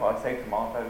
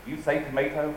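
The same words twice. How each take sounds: First: "tomato" said the British way, with an "ah" vowel, to-MAH-to. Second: "tomato" said the American way, with an "ay" vowel, to-MAY-to. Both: Shown as a demonstration. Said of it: "Nobody says potato".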